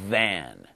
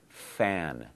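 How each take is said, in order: First: The first sound is voiced, a buzzing th. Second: The first sound is voiceless, like an f. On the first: The speaker calls it right. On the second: The speaker calls it wrong. "if I don't voice it, it sounds like fan"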